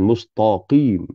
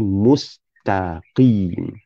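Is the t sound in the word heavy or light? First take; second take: heavy; light. First: The t sound is heavy, like to. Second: The t sound is light and thin. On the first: The speaker calls it wrong. "bukan mustaqim" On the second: The speaker calls it right. "ta bukan to. Jadi mustaqim"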